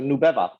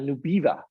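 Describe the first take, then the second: First: The name is said the intended, Spanish-based way. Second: The name is said the way Houston speakers said it. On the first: This is how the name was meant to sound. The speaker calls it right. "something that was easy to pronounce for immigrants" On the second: Native English speakers misread the name. The speaker calls it wrong. "they would pr- pronounce that Nubiva"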